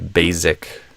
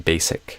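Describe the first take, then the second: First: The middle consonant is a buzzing Z sound. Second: The middle consonant is a hissing S sound. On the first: It marks a Brazilian speaker. The speaker calls it wrong. "a lot of Brazilians say it as a Z sound" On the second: It marks an American speaker. The speaker calls it right. "I usually recommend doing it with the S sound"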